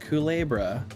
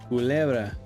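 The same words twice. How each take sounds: First: The word is said with a heavily anglicized accent. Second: The word is said with a Spanish-sounding accent.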